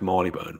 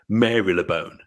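First: The name is said in its short, reduced form. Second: Every syllable of the name is sounded out fully. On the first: "we know it's pronounced Marylebone" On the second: "Because that's the way it's spelled"

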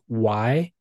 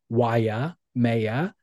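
First: The name is said without the extra syllable. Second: The name is said with an extra syllable. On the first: The speaker calls it right. "It's just Waimea" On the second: The speaker calls it wrong. "I was adding an I and an extra syllable and saying Waimea"

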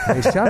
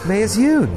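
First: The name is said smoothly as two syllables. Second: The name is read out literally, as spelled. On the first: The speaker calls it right. "Mei Shun sounds good. ... Mei Shun, I like" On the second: The speaker calls it wrong. "or as it reads, Mei is Yun. ... I don't like that"

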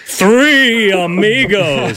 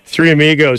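First: The title is said with solemn reverence. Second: The title is said plainly, without reverence.

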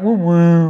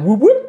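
First: The sound seems sad. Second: The sound seems happy.

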